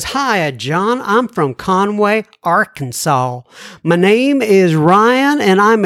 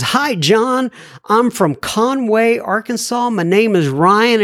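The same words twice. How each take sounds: First: Slow, lightly put-on Southern drawl for a listener's letter; a mild imitation of an Arkansas drawl, stretched out slow. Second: Said in the usual way. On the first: Reading Ryan's letter aloud as a teasing Southern drawl. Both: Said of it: "he probably doesn't talk like that at all".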